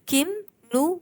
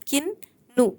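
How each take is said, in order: First: The words are separated with an m sound. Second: The words are joined with a doubled n sound. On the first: "तो अनुस्वार आहे" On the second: "याची संधी कशी झाली? किन्नू"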